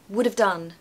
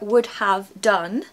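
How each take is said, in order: First: 'Have' is reduced to a weak 'of' sound. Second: 'Have' is pronounced in full with its h. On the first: The speaker calls it right. "is just so much more natural" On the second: The speaker calls it wrong. "is okay, it's not wrong"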